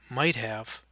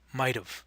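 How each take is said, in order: First: Have is said fully as a separate word. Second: Have is reduced and joined to might. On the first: "the long forms" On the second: "the contractions"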